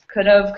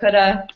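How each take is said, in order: First: 'Have' is pronounced fully. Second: 'Have' is reduced to a short 'a'.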